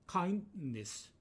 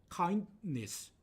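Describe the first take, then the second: The two takes are said the same way.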